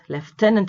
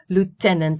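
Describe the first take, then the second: First: It is said the British way. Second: It is said the American way. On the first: "is the British pronunciation" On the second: "is American"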